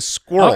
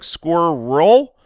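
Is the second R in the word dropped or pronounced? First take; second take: dropped; pronounced. First: The second R sound is not clearly pronounced. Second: The second R sound is clearly pronounced. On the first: "or are you just saying squirrel?" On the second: "Are you pronouncing the second R like squirrel"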